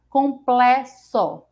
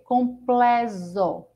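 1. O x é pronunciado com som de s. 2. O x é pronunciado com som de z. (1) "Se a gente fosse ler com som de C" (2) "Com o som de Z"

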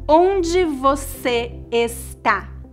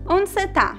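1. Cada palavra e sílaba é dita por completo. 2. Algumas letras e sílabas são omitidas. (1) "um brasileiro raramente vai dizer" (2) "A pronúncia mais natural seria"

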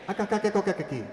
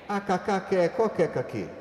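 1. A fala está em ritmo médio. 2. A fala está em ritmo lento.

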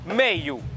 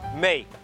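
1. O tom sobe e desce, soando musical. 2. O tom é plano e o som é rígido. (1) "É uma palavra com altos e baixos" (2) "Em michelense fica meio. É um som mais inflexível, mais rijo"

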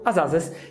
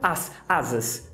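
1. As duas palavras são ligadas juntas de forma suave. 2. As duas palavras são pronunciadas separadamente, sem ligação. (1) "eu falo as asas. Isso é ligação" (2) "Eu não falo as asas. Se fizesse assim ficaria estranho"

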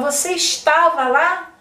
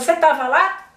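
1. Cada sílaba da frase é pronunciada por completo. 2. As sílabas da frase são cortadas e apagadas. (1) "A gente não fala" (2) "a gente fala; Assim meio cortado"

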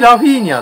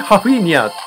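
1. その名前はrの音で始まる。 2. その名前はhの音で始まる。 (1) "若い人のね、実況の場合だとね、完全にラフィーニャって言ってますね" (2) "年配のアナウンサーの場合は完全にハフィニアとか"

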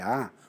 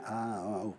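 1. A vogal "A" é dita com a boca bem aberta. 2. A vogal "A" é dita com a boca quase fechada. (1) "O A é com a boca aberta, é A" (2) "não é A"

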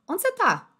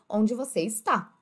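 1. A frase flui rapidamente, com o verbo encurtado. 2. Cada palavra é dita completa e separadamente, de forma robótica. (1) "Como é que você fala normalmente?" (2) "ele aprende a falar assim"

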